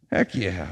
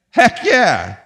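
First: Soft, low heck yeah; quiet echo. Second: Loud, high heck yeah; emphatic exclaim. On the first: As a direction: drop it to a quiet aside. Same words repeated as aside. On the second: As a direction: punch it out with full conviction. Preacher answering own question emphatically. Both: Acted.

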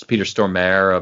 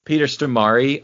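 First: "Stormare" said STOR-mair, no final vowel; Stormare rhyming with mare. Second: "Stormare" said stor-MAR-ee; Stormare ending in -ee. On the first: Showing how people say the actor's name, "Stormare" as STOR-mair. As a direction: rhyme the end of "Stormare" with air. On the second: Correcting how people say the actor's name, "Stormare" as stor-MAR-ee. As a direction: end "Stormare" on a clear ee sound. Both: Shown as a demonstration. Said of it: "or people say".

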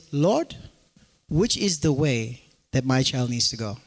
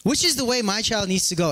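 First: Lower, hushed prayer asking the Lord. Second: Said in the usual way. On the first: Retold or imitated. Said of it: "they would have said".

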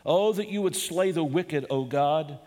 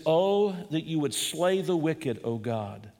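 First: Impassioned prayer. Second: Said in the usual way. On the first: Acted. Preacher voicing David's desperate plea, impassioned. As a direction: pray it as if enemies surround you. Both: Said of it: "Wouldn't you pray that way".

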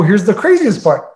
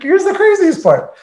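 First: Said in the usual way. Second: Much higher, excited restart of the phrase; excited emphasis. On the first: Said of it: "Like, here's the craziest part". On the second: Real, not acted. Building up the story for the host, excited and much higher. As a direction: really sell the twist that's coming.

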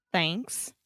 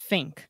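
First: "thanks" with tongue between teeth; correct th. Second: "think" said as "fink" with lip bite. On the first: Shown as a demonstration. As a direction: say "thanks" with a real th. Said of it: "Esse é o correto". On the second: Retold or imitated. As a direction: say "think" with an f sound. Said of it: "com som do F".

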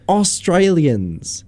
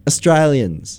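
First: Australians with a full open "Aus" at the front; mock over-pronounced first vowel in Australians; wrong full vowel. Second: Australians with the first vowel cut to a brief "uh"; Australians, quick indistinct opening vowel; reduced first vowel. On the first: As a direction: draw out Australians, first syllable fully sounded. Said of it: "It's not Australians". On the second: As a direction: barely sound the first syllable of Australians. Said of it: "There's no actual vowel sound". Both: Shown as a demonstration.

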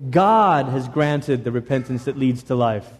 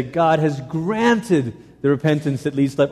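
First: God punched, the rest of the line lower; stress on God. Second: Granted leaned on, God left light; stress on granted. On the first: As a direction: hit the word God first. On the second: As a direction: lean hard on granted. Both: Shown as a demonstration. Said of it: "emphasizing different words each time".

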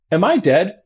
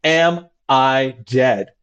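First: Light high casual question; patient asking mildly. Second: Calm casual question. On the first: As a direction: ask it like ordering onion rings. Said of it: "In that tone of voice". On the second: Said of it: "a voice of saying, "I would like onion rings". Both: Retold or imitated.

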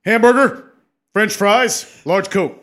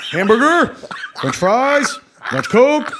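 First: Higher, louder proclamation; booming kingly order. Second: Higher and louder with each item; rising kingly order. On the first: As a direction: declare each item like a king. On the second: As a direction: climb up through the order. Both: Retold or imitated. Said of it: "It always goes up".

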